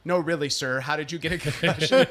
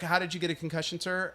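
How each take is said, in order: First: Lightly voiced disbelieving nurse; retold sceptical follow-up question; insistent nurse. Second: Lightly voiced nurse, matter-of-fact; mild, understated nurse enquiry; nurse's routine question. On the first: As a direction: press for the real answer, mildly mocking. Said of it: "And she's like". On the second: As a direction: ask it softly as a routine intake question. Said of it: "the nurse is like".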